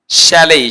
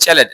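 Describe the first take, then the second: First: শ্যালেই as "she-lay"; correct pronunciation. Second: চ্যালেট with ch and final t; learner's চ্যালেট, hard ending; common mispronunciation. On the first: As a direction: model শ্যালেই with a gliding end. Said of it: "এর উচ্চারণ হবে". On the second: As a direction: say "che-let" as spelt. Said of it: "আমরা বলি চ্যালেট". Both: Shown as a demonstration.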